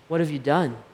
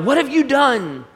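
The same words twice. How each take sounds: First: It sounds sorrowful and full of remorse. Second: It sounds like an angry rebuke.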